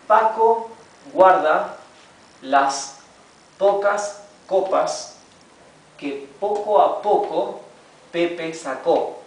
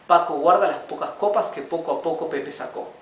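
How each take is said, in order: First: The sentence is read slowly. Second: The sentence is read faster. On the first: "we'll begin reading it slowly" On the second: "little by little we'll read it a bit faster"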